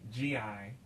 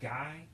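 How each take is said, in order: First: It is spelled out as two letters. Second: It sounds like the English word 'guy'. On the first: "or G I" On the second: "here it might be pronounced guy"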